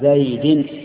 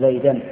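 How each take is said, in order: First: The word ends with an i-vowel ending. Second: The word ends with an a-vowel ending. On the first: The noun is in the genitive case. The speaker calls it right. "يجب أن يكون مخفوضا" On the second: The noun is wrongly in the accusative case. The speaker calls it wrong. "ولا تقل"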